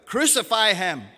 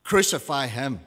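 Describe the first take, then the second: First: Loud, raised-pitch demand; crowd's louder shout. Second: Firm, louder crowd reply; crowd's answer. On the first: Crowd shouts all the louder at Pilate, raised-pitch shout. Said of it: "they shouted all the louder". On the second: Crowd answers Pilate's question, loud and firm. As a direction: answer loudly as one crowd, without a full shout. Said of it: "They all answered". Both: A narrator's reading.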